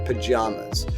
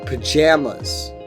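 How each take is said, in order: First: The middle vowel sounds like the one in father. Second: The middle vowel sounds like the one in jam. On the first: This is how Southern and Eastern speakers say it. "you'll hear A as in father" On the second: This is how Midwestern and Western speakers say it. "the A in pajamas is pronounced like jam"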